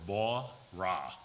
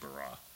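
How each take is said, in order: First: The first vowel is a broad 'aw' sound. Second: The first vowel is a plain 'a' sound. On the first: The speaker calls it right. "it's actually pronounced more ba-ra, B-A-W-R-A-H would be the correct pronunciation" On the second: The speaker calls it wrong. "it's easier for me to say bara"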